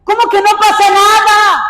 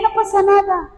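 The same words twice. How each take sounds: First: High, forceful incredulous question; raised-pitch preacher's outrage; indignant rebuke. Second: High, offhand imitation of unconcern; mock nonchalance. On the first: Real, not acted. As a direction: throw the dismissal back indignantly. Rebukes the dismissive attitude. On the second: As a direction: brush it off as no matter. Voices the unconcerned attitude.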